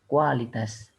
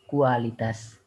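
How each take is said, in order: The two takes are said the same way.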